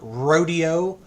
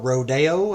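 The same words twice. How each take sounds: First: It is said the Texan way. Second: It is said the Californian way.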